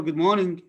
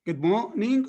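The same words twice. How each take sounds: First: Said in the usual way. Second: "morning" split as maw / ning; mor-ning division. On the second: Shown as a demonstration. Teacher offering students the first option, split mor-ning. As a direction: pause before the N of "morning". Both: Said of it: "which pronunciation is the".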